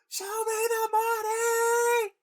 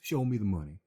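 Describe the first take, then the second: First: It is said loudly, yelled. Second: It is said quietly.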